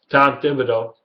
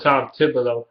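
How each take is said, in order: First: Tom Thibodeau said carefully and clearly, with a crisp "d" in "Thibodeau"; careful pronunciation. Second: Tom Thibodeau in a Detroit accent, "Thibodeau" said as "Thibolo". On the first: Vlogger corrects his accent on a coach's name, careful pronunciation. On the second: Vlogger hears his own Detroit accent on a name, Detroit accent. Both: Shown as a demonstration. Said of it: "It's that Detroit accent I".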